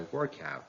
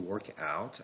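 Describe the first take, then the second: First: The stress is on the first part. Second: The stress is on the second part. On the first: It is used as a noun. "the noun takes stress on the first part" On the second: It is used as a verb. "The verb takes stress on the second part"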